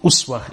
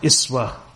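First: The first vowel is a rounded 'u' sound. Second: The first vowel is a front 'i' sound. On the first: "you can pronounce them with a dhamma" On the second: "Most of the other qira'at are iswatun hasana"

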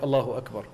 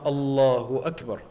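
First: It is said quickly and hurriedly. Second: It is said slowly and calmly.

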